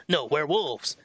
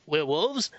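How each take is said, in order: First: Put-on "werewolves" in a Kiwi accent, said flat and falling as a correction. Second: Put-on "Werewolves?" in a Kiwi accent, asked like "where wolves?" with a rise. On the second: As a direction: do the Kiwi "Werewolves?" as a puzzled question. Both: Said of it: "since they have the Kiwi accent".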